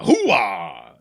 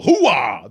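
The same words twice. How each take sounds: First: Low barking catchphrase; Al Pacino. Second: Louder barking catchphrase; Al Pacino. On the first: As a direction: bark it like a worn-out colonel. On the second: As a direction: hit it loud like a colonel. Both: Retold or imitated. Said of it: "Al Pacino".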